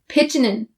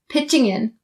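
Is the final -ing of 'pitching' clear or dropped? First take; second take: dropped; clear. First: The g is dropped, n linking into in. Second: The -ing ending is fully clear before in. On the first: "drop the g sound on pitching and say pitchin'" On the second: "having the ing, ing sound really clear, and connecting it to in"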